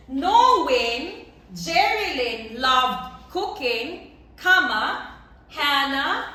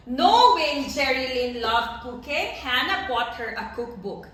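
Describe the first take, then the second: First: Slow, deliberate, each word spaced out for the class; slow dictation. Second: Said in the usual way. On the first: Shown as a demonstration. Teacher to class, dictating the example slowly and clearly. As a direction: spell it out slowly so students can write. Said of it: "teacher dictates the example sentence". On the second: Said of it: "teacher repeats the example normally".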